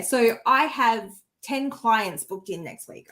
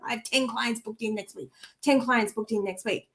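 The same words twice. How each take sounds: First: Said in the usual way. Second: Softer, repeated by rote; quiet mechanical repetition; rote inner mantra. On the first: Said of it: "saying that affirmation over and over again". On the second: Shown as a demonstration. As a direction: mumble it like a mantra in your head. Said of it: "over and over again in my head".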